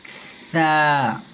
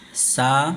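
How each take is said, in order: First: The consonant is soft with no whistle. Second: The consonant is a hissing, whistling s. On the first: The speaker calls it right. "बल्कि सा। इसमें सीटी की आवाज़ नहीं आएंगी" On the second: The speaker calls it wrong. "अक्सर लोग इन दोनों की आवाज़ को एक जैसा पढ़ते हैं ... ऐसे नहीं"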